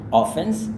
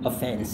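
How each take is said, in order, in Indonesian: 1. Tekanannya ada di suku kata pertama. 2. Tekanannya ada di suku kata kedua. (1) "dia tekankan di bagian mulai dari awal sampai terakhir" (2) "dia lebih tekankan kepada fence-nya"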